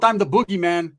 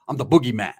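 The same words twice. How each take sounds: First: Louder, higher punch on boogeyman; menacing declaration. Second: Said in the usual way. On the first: Retold or imitated. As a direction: hit him with it like a threat. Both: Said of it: "I hit him with".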